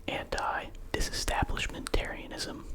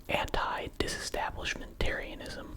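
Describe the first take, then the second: The two takes are said the same way.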